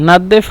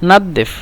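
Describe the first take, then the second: Both takes have the same delivery.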